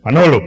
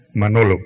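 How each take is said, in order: First: Much louder, clipped stern call of the name; angry father's call. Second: Stern dad voice.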